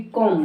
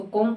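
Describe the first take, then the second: First: कॉम के अंत में B बोलते हुए, कॉम्ब; कॉम का ग़लत रूप, कॉम्ब; ग़लत B सहित. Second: कॉम, आख़िर में B की आवाज़ के बिना; कॉम को M पर ख़त्म करें; मूक B. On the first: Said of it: "ना कि कॉम होता". (कॉम में M के बाद B जोड़ें) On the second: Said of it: "इसको कॉम पढ़ते ना कि". (कॉम का सही उच्चारण, B मूक) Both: Shown as a demonstration.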